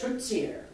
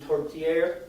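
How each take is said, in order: First: The t in the word sounds like ts. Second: The t in the word is plain. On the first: "In Canada" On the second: "In France would be"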